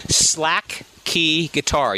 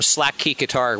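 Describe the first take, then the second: First: Very slow, drawn-out "Slack key guitar"; said slowly. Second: Said in the usual way. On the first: Shown as a demonstration. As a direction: stretch out each word of "Slack key guitar". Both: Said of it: "You have to say it slowly".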